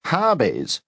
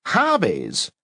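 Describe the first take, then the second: First: Scoffing, pitched high and falling; disdainful scoff, much higher; contemptuous snort. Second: Scoffing again, high and falling; disdainful repeat; contemptuous repeat. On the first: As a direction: scoff at the word Hobbies. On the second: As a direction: scoff at Hobbies once more. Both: A narrator's reading. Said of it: "snort contemptuously".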